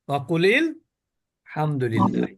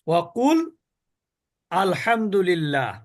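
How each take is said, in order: First: Qul runs straight into 'lil' with no break. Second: It stops after qul, then starts with 'al'. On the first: "যদি পড়া মিলিয়ে পড়েন ... তখন আর হামজা উচ্চারিত হয় না।" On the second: "অকুল যদি থেমে যান, আলহামদুলিল্লাহ।"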